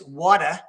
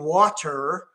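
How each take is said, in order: First: The R sound at the end is short. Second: The R sound at the end is drawn out. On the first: "I actually used to pronounce water like this" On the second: "they were really dragging out the R"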